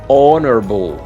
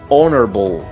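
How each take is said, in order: The two takes are said the same way.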